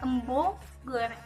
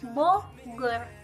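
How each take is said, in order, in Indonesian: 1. Kata ini diawali dengan bunyi m-b. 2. Kata ini diawali dengan bunyi b biasa. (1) "bukan embogor" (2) "kata Bogor dilafalkan dengan Bogor"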